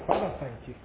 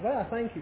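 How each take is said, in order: First: It is said calmly, with little force. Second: It is said intensely, with great force. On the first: This is simple thanksgiving, not deep struggle. "Not travailing in prayer. Something like that" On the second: This is earnest, struggling prayer. "They prayed intense prayer"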